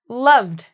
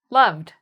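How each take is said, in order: No difference in how they are said.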